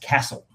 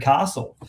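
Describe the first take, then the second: First: It uses the regional Victorian pronunciation. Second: It uses the pronunciation common across Australia. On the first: This is the traditional local pronunciation in Victoria. "people in most of Victoria... pronounce that word as castle" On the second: This is how the film's title is said nationwide. "universally across Australia pronounced as the castle"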